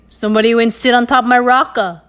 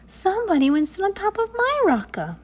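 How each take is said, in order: First: The voice is deep and gruff. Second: The voice is soft and sweet. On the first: "in his deep, gruff voice" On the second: "in her soft, sweet voice"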